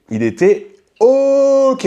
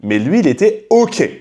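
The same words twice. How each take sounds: First: Sing-song mocking repeat, slowed way down; high drawn-out mock. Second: Said in the usual way. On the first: Host mocking that the man was fine, drawn out high. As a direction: stretch "Il était ok" very high and very slow.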